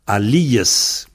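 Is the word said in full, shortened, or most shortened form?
full. The full standard form is said, nothing dropped. This is the standard form of the word. "la prononciation standard"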